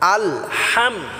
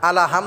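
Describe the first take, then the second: First: 'Al' joins straight to 'ham' with no vowel. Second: An extra vowel follows 'al' before 'ham'. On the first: The speaker calls it right. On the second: The speaker calls it wrong.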